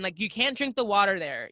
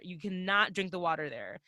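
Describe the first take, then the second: First: Said in the usual way. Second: Cannot spelt out, low and quieter; stress on cannot. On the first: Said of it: "first take". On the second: Real, not acted. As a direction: spell out cannot, each syllable firm. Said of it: "repeated for emphasis".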